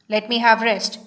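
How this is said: It is said sharply, like an order. The speaker is giving an order. The speaker calls it wrong. "you cannot take this as a command. ... You cannot say like this"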